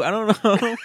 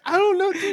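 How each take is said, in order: First: Giggling through the words; amused mumble; laughing. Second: High silly put-on voice; ribbing impression of a friend; mocking imitation. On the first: Real, not acted. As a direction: let the laugh spill into it. Said amid laughter. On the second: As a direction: mimic him in a goofy higher voice. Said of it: "You're like".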